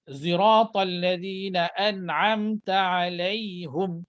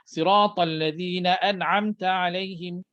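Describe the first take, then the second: First: Sirat begins with a z-like rounded sound. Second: Sirat begins with a heavy emphatic s sound. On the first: "Ada baca dengan muncung" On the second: "Riwayat Hafs Asim macam itu"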